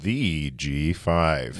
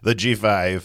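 First: It is said more slowly. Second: It is said fast.

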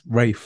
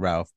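First: The name is said in a posh way. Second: The name is said in a plain, everyday way. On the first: This is how upper-class people say it. "when you're in the land of the posh people" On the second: This is how ordinary people say it. "We pronounce it Ralph because we're normal people"

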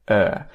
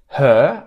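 First: The h sound at the start is dropped. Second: The h sound at the start is pronounced. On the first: "I say er" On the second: "I don't say her"

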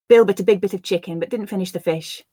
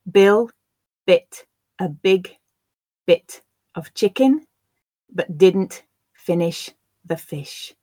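First: The sentence is said at a natural pace. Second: The sentence is said slowly. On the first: "I'll then read them at a more natural pace" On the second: "I will read the sentences first slowly for you to grasp the words"

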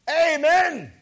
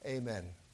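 First: It is said with joyful excitement. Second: It is said flatly, without feeling.

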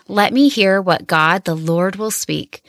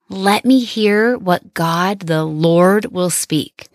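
First: It is read at normal speed. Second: It is read slowly.

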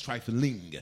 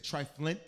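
First: The word ends with an -ing sound. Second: The word ends with an -int sound. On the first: The speaker calls it right. "trifling is the appropriate pronunciation of the word" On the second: The speaker calls it wrong. "Some people say triflint. That's not the word"

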